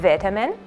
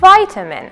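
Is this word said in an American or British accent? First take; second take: British; American. First: It is said with a British pronunciation. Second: It is said with an American pronunciation. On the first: "British English" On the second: "American English"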